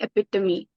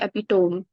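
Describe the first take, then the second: First: The final E is pronounced. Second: The final E is silent. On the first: The speaker calls it right. "it's actually" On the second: The speaker calls it wrong. "people say"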